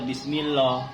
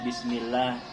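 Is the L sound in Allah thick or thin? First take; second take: thick; thin. First: The L in Allah is heavy and thick. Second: The L in Allah is light and thin. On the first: The speaker calls it wrong. "Tidak boleh dibaca Bismillah" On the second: The speaker calls it right. "bacanya harus tipis"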